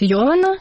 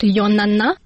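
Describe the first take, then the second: First: The third syllable begins with a v sound. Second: The third syllable begins with an n sound. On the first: The speaker calls it right. "Меня зовут Йована" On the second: The speaker calls it wrong. "с звуком «В» у меня была проблема"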